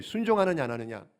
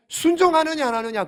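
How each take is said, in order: First: Said in the usual way. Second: "순종하느냐" raised and punched; emphatic key question. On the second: Real, not acted. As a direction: press the choice, hitting "순종하느냐" hard. Key question stressed, then repeated lower. ("순종하느냐"를 높고 힘주어 강조)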